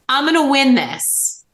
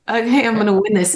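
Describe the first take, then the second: First: It sounds firm and convinced. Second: It sounds hesitant and unconvincing.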